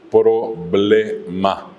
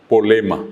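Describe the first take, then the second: First: Problema slowly, with PR and BL sounded; problema silabeado. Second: Polema, dropping both R and B; polema por problema. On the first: Shown as a demonstration. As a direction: spell out problema syllable by syllable. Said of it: "es decir". (problema, lento y por sílabas) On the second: Retold or imitated. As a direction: say polema with single consonants only. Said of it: "alguien que decía". (polema, sin la R ni la B)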